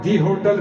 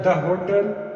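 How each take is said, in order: First: 'The' is said with a long 'ee' vowel. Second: 'The' is said with a short 'uh' vowel. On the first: "और दी hotel भी use कर सकते हैं" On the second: "इसके साथ द का भी यूज किया जाता है"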